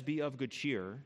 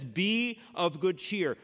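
First: Soft, slow be of good cheer; gentle comfort. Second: Slow, deliberate Be of good cheer; steady comfort. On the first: Jesus to frightened Paul, soft and slow. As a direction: ease him gently. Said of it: "He says". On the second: Jesus to Paul in the barracks, slow and firm. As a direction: lay each word down firmly. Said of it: "Jesus comes to him and he says". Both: Retold or imitated.

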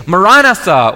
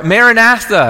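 First: "Maranatha" with stressed open "ah" in second syllable. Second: "Maranatha" stressed on third syllable, short "a" as in "math"; alternative pronunciation. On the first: Preacher quotes John's prayer, "Maranatha" as muh-RAH-nuh-thuh. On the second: Preacher shows congregation another way, "Maranatha" as mare-uh-NATH-uh. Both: Shown as a demonstration. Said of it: "as some would say it".

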